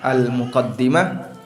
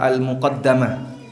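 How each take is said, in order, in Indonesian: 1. Vokal setelah double d adalah 'i'. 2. Vokal setelah double d adalah 'a'. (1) "bisa dibaca al-muqaddimah" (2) "bisa dibaca al-muqaddamah"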